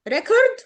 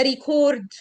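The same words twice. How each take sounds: First: ريكورد as REC-ord; first-syllable stress. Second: ريكورد as ri-CORD; weak start, long stressed "cord" in ريكورد; second-syllable stress. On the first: Teacher asking which is right, REC-ord with front stress. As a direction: stress the start of ريكورد, reduce the ending. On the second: Teacher asking which is right, ri-CORD with end stress. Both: Shown as a demonstration. Teacher contrasts two pronunciations.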